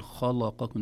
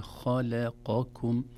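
First: خلقكم with a wrongly heavy, dark ل; تفخيم اللام خطأً. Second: خلقكم slow, heavy خ and ق, light ل; ترقيق اللام. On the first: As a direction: darken the ل of خلقكم like the خ. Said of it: "لا نقول". (خلقكم بلام مفخمة) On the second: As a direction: switch heavy-light-heavy through خلقكم, drawn out. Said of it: "ترقيق اللام". (خلقكم ببطء بلام مرققة وقاف مفخمة) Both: Shown as a demonstration.

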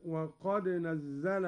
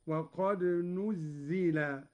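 First: Said in the usual way. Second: نزل said "nuzzila", with u then i; passive verb reading. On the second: Shown as a demonstration. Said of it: "على أن الفعل مبني للمجهول".

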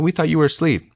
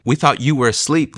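First: Much higher, startled retelling; mock alarmed friends, voice jumping up. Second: Mildly startled, pitched higher; lightly imitating friends caught off guard; surprised. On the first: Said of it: "They're like". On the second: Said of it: "they say in that moment".

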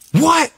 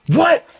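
First: High, loud repeated what; shocked disbelief. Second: High, loud incredulous what; shocked disbelief. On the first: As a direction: say it again, still reeling. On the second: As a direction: gasp it out in total shock. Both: Retold or imitated. Stunned at seeing Paul.

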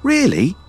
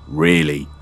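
First: High, delighted question; beaming. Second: Said in the usual way. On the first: A narrator's reading. Son trusted by father, high beaming surprise. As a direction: pitch shoots up in eager disbelief. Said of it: "Oran beamed".

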